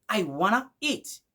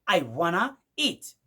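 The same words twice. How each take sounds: First: Want to is blended into one word, wanna. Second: Want to is blended into one word, wanna.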